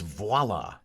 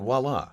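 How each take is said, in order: First: The word begins with a v sound, like vwah-lah. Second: The word begins with a w sound, like walla. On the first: The speaker calls it right. "It's voila" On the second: The speaker calls it wrong. "It's not voila. ... you said W A dash L A"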